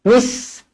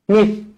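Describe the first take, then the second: First: It starts with a plain s sound. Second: It starts with a th sound, tongue out. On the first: The speaker calls it wrong. "jangan baca misqa. Mis salah" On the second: The speaker calls it right. "pastikan lidah terkeluar sedikit"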